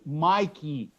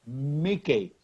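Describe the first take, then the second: First: The first vowel sounds like the letter name I. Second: The first vowel is a short 'ih' sound. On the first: The speaker calls it wrong. "I don't say Mikey" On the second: The speaker calls it right. "the first vowel is not pronounced as in the alphabet"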